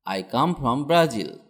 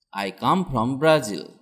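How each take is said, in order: Both takes have the same delivery.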